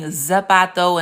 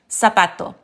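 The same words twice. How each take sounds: First: It begins with a buzzing z sound. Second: It begins with a hissing s sound. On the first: The speaker calls it wrong. "instead of saying zapato" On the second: The speaker calls it right. "it's actually zapato"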